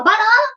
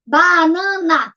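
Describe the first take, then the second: First: Said in the usual way. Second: BANANA very slowly, BA, NA, NA; syllable by syllable. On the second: Shown as a demonstration. Teacher counts the giraffe's food, syllable by syllable. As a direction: count out BANANA in three held beats. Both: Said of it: "três".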